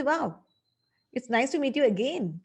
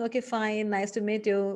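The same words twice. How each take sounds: First: "again" given its own rise and fall; lively "Wow", then a lilt on "again"; tonality on again. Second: Level, quick first-meeting pleasantry; casual wave-off. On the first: Teacher greeting someone met twice that day, lilting on "again". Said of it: "the tonality matters a lot". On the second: Teacher showing a first-meeting goodbye, casual wave-off. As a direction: say it evenly, as a passing courtesy. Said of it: "when you want to wave off". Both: Shown as a demonstration.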